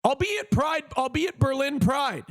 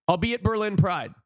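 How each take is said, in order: First: Excited announcement. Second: Said in the usual way. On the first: Real, not acted. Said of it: "repeats announcement". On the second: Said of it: "repeat, calmer".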